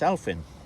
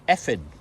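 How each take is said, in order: First: It is said like English 'elf in'. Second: It is said like 'effin', without the L. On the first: The speaker does not know the Welsh word. The speaker calls it wrong. "who didn't know, would would say it's Elfin" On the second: This is how the Welsh word is really said. The speaker calls it right. "but it's actually pronounced Effin"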